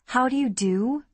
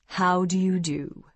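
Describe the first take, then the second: First: High, rising incredulous echo. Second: Slow, austere formal greeting; slow and stately, very proper. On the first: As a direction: repeat it as a disbelieving question. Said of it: "I repeated incredulously". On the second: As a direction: greet them with stiff, measured formality. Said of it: "Michael nodded austerely". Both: Acted.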